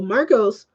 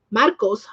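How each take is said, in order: First: Said in the usual way. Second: Marcos with a tapped Spanish r; Spanish pronunciation. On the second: Shown as a demonstration. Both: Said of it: "I should just say Marcos".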